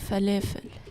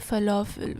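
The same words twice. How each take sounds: First: It is said the Lebanese way. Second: It is said the usual non-Lebanese way. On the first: "We say falafel" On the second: "In Lebanese, we don't say falafel"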